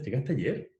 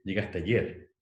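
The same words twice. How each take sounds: First: "¿Llegaste ayer?" with the pitch climbing on "ayer"; entonación de pregunta que sube; rising question tune. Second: "¿Llegaste ayer?" said with the pitch dropping at the end; entonación que baja al final; falling statement tune. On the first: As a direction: end "ayer" going up, clearly asking. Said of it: "la pregunta es". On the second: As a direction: let "ayer" fall like a plain statement. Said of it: "como que baja". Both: Shown as a demonstration.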